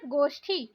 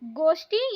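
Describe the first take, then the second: First: गोष्ठी with aspirated "thi"; breath puff on t of गोष्ठी; correct pronunciation. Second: गोष्ठी with plain "ti"; no puff on t of गोष्ठी; wrong pronunciation. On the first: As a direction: say गोष्ठी as "goshthi". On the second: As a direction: say गोष्ठी as "goshti". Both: Shown as a demonstration. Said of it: "यहाँ गलत दिया है".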